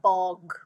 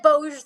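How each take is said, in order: First: The word is said like 'bog'. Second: The word is not said like 'bog'. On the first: The speaker calls it right. "it was more like bog" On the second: The speaker calls it wrong. "I said Boge the first time too"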